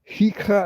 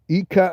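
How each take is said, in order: First: The word begins with a harsh throaty sound. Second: The word begins directly with a vowel. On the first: The speaker calls it wrong. "No, you don't pronounce a ch in Hika" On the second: The speaker calls it right. "It's it just sounds like a K in some regions"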